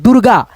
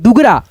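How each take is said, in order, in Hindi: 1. र की ध्वनि ग से पहले आती है। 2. र की ध्वनि ग के बाद आती है। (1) "ये आपका पढ़ने का तरीका सही है" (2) "दुगरा नहीं दोस्तों"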